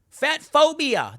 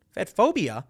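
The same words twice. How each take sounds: First: High, drawn-out mock outcry; mock accusation. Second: Incredulous echo. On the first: Host quoting critics' accusation, mock outraged. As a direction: exclaim the label with scorn. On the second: Real, not acted. Host questioning the critics' label, incredulous. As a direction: toss the label back as a question.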